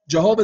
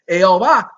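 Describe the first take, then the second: First: The name is said with English sounds. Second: The name is said with Spanish sounds. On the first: "Jehovah is the English pronunciation" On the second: "Jehovah is the pronunciation in Espanol"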